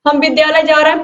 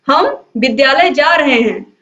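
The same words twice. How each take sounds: First: It is said plainly with even stress. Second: The word हम is strongly stressed.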